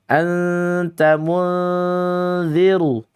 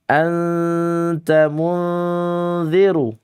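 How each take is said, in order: No difference in how they are said.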